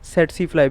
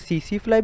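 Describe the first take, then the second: First: Only the first t is silent, like set-see. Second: Both t sounds are silent, like see-see. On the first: "सिर्फ पहले टी को silent करके" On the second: "दोनों टी को silent करके"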